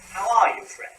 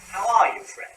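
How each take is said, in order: The two takes are said the same way.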